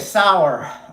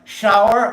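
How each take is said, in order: First: The word starts with an s sound. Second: The word starts with a sh sound. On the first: The speaker calls it wrong. "I would pronounce it" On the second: The speaker calls it right. "So I would say like shower"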